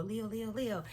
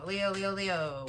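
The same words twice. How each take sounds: First: Soft sing-song cheer chant; cheerleader. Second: Said in the usual way. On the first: Shown as a demonstration. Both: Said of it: "Sound like a cheerleader".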